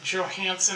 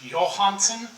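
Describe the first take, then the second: First: The name is said the American way. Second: The name is said the Danish way.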